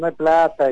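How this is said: It is said in a smug, boastful tone. The lack of money is flaunted with arrogance. The speaker calls it wrong. "lo dijo en tono de no hay plata"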